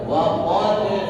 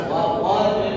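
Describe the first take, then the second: The two takes are said the same way.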